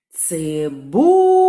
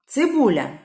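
First: Цибуля called slowly with a long, loud БУ; calling out. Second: Said in the usual way. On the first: Shown as a demonstration. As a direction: swoop up and hold the second syllable of Цибуля. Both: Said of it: "Гукаємо слово".

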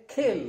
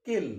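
First: खिल with a puff of air on the K; aspirated K. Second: किल with a plain unaspirated K; किल, dry K without aspiration; Indian-style K. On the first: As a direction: kill said as खिल, breath after the K. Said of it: "तो आप इसे बोलेंगे". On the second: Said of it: "लेकिन Indian क्या बोलेगा?". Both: Shown as a demonstration.

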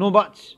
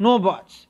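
First: Loud bully shout. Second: Loud sharp shout of No buts. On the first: Teacher repeating Makara's shout at the lizard, loud. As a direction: cut them off loudly. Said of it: "He said". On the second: Makara shouting down the little lizard, loud bully shout. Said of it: "shouted Makara". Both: Acted.

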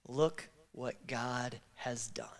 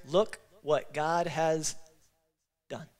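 First: Choked whisper. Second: "Look what God has done" spoken slow and even, each word given weight; slow practice call. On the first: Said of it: "can we just give a resounding". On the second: Pastor leading a practice run, each word slow and weighted. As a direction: model the phrase slowly for the crowd to copy. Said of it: "Can we give a trial practice here?". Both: Shown as a demonstration.

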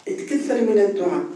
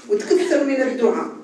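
First: تكثر من الدعاء at usual pitch, weight on من; settled repetition, stress on من; calm restatement. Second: وتكثر lifted higher with a falling close; urging, higher on وتكثر; raised appeal. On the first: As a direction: lean on من, level and falling. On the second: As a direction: stress وتكثر, pitch up, falling tune. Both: Shown as a demonstration.

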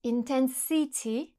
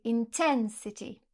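First: Intensity stressed on the first syllable; wrong English stress. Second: Intensity stressed on the second syllable, slowly; correct English stress. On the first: Teacher showing a French speaker's wrong stress on intensity. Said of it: "Par exemple, si je dis". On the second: Teacher giving the correct stress of intensity. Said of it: "c'est faux, c'est". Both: Shown as a demonstration.

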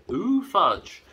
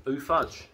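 First: High, louder swooping delight; drawn out delight. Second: Higher put-on jingle voice; drawn out delight. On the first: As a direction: swoop down on ooh with relish. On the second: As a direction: say it like a cheesy ad. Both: Shown as a demonstration. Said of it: "There you go, that's all it is".

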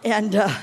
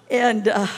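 The two takes are said the same way.

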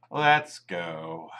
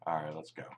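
First: Said in the usual way. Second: Soft unvoiced whisper. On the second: Real, not acted. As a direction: urge them on in a whisper. Quiet urging in game.

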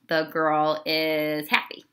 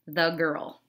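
First: Put-on "The girl is happy." said slowly and clearly, word by word; slow model sentence. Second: Said in the usual way. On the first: Shown as a demonstration. Teacher modelling a complete sentence slowly for the class. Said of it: "That would be a sentence". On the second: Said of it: "a sentence is not".

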